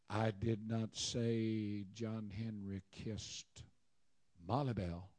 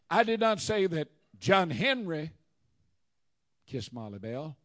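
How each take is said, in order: First: The stress falls on 'Molly Bell'. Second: The stress falls on 'John Henry'. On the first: He kissed someone else. "John Henry kissed Annie Sue" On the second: Someone else did the kissing. "It was Joe Blow"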